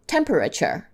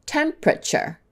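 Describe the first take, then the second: First: "Temperature" as tem-per-a-ture; all syllables. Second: "temperature" as tem-pra-ture; fewer syllables. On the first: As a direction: sound every syllable of "Temperature". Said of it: "Let's do a couple more". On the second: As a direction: squeeze "temperature" into three syllables. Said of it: "say it with fewer syllables". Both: Shown as a demonstration.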